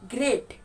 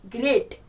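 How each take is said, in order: Both takes have the same delivery.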